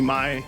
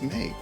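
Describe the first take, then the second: First: The vowel is not a long A sound. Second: The vowel is a long A sound. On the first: The speaker calls it right. "It has to be Mai" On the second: The speaker calls it wrong. "There's no way it's May"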